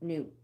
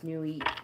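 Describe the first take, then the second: First: The word rhymes with boot. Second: The word does not rhyme with boot. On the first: "Like boot" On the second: "Maybe it's New Eat"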